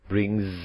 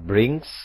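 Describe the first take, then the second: First: The word ends with a buzzing z sound. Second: The word ends with a hissing s sound. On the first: The speaker calls it right. "tapi brings" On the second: The speaker calls it wrong. "dibaca tidak brings"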